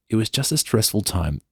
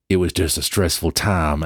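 First: It is read in a plain English accent. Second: It is read in a put-on American accent.

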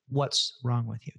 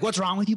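First: It sounds like a sincere, curious question. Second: It sounds like an accusing insult.

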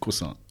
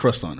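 First: It is said with a French-style pronunciation. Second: It is said with an American pronunciation. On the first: The speaker calls it right. "It's croissant" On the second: The speaker calls it wrong. "Apparently we say it wrong, right? It's not croissant"

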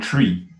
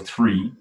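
First: It starts with a plain T sound. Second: It starts with a TH sound. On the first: "I would say the or tree. I wouldn't pronounce the TH" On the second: "when you say the or three"

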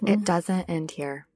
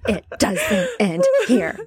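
First: It is said softly, without much force. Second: It is said loudly, with strong force. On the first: The speaker calls it wrong. "You got to say it with more force than that. You're like" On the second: The speaker calls it right. "I swear I don't say it that way"

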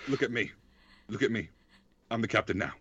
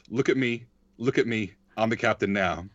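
First: It is said in a put-on character voice. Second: It is said in the speaker's normal voice. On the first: "Should I?" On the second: "you're not going to do the impression"

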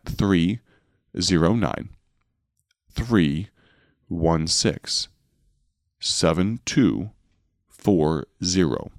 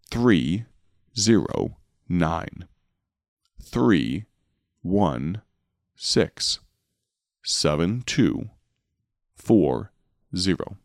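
First: The number is read slowly. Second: The number is read even more slowly.

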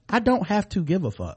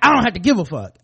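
First: It is said in a calm, detached tone. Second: It is said in an angry, hostile tone. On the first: One simply moves on without caring. The speaker calls it right. "I'm not saying it that way" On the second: One feels animosity toward the other person. The speaker calls it wrong. "but it's angry"

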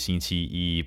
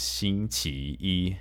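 First: The middle syllable carries the mainland tone. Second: The middle syllable carries the Taiwan tone. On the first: This is how it is said on the mainland. "in the mainland is Monday is 星期一" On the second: This is how it is said in Taiwan. "but then in Taiwan is 星期一"

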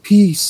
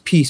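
First: It is said in a huge, deep, echoing voice. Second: It is said in a plain voice.

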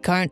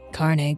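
First: The name ends on a consonant sound. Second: The name ends with an extra vowel sound. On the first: The speaker calls it right. "Not in Carn" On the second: The speaker calls it wrong. "you've got me saying Carne"

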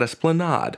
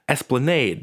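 First: It is said the outsider, non-local way. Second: It is said the local New Orleans way. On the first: The speaker calls it wrong. "not Esplanade" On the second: The speaker calls it right. "saying the names of New Orleans street names"

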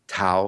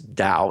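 First: The word begins with a T sound. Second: The word begins with a D sound. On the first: "a lot of people say Tao" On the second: "the correct Chinese pronunciation is DAO, even though it's spelled T-A-O"

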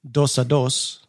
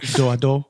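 First: The final s consonants are pronounced. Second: The final s consonants are silent. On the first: The speaker calls it wrong. "I'm probably pronouncing way too many of those consonants" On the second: The speaker calls it right. "It's probably like do-a-do"

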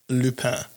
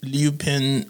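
First: The name is pronounced in the French way. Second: The name is pronounced in an English way. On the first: The speaker calls it right. "but it is actually Lupin" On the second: The speaker calls it wrong. "you may have heard it referred to as Lupin"

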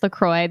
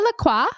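First: The name is pronounced the English way. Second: The name is pronounced the French way. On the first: "I'm pretty sure it's LaCroix" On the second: "Like a French pronunciation"

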